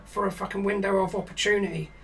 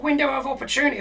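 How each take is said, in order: First: Said in the usual way. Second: Incredulous echo. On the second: Retold or imitated. Echoing Joe's excuse in disbelief.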